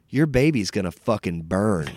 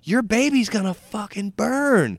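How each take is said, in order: First: Put-on old lady's curse, delivered at near-usual pitch; matter-of-fact menace, a touch louder; mild retold threat. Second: Put-on high, loud old-lady curse; imitated vicious threat. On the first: Sweet old lady to pregnant waitress, mildly menacing. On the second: Old lady repeating it to waitress, vicious. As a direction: repeat the threat with mock venom, pitched way up.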